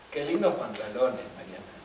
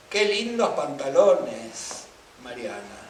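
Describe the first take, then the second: First: Lower, dry irony with weight on lindos; sarcastic compliment. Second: Slow, drawn-out praise with weight on qué; admiring compliment. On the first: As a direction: say it as a mocking jab at Mariana. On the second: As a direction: compliment the trousers as if you mean it. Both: Shown as a demonstration. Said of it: "yo lo puedo cargar con distinta subjetividad".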